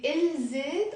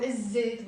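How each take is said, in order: First: الزيت as il-zet with the L sounded; the wrong option, L kept before Z in الزيت; lam pronounced. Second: الزيت as iz-zet, doubled Z; silent lam. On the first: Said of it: "we don't pronounce the lam". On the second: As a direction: drop the L and hold the Z in الزيت. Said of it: "We will say الزيت". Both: Shown as a demonstration.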